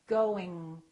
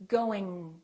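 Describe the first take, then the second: The two takes are said the same way.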